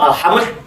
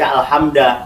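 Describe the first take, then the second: First: The word ends with no final vowel. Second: The word ends with an a vowel. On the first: "tidak mungkin dibaca" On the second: "tidak mungkin dibaca"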